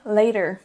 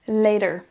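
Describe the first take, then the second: First: It is said with an American accent. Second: It is said with an American accent.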